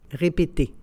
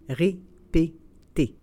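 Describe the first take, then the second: First: It is said at normal conversational speed. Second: It is said slowly and carefully. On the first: "and then in communicational Canadian French" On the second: "then slowly said in French"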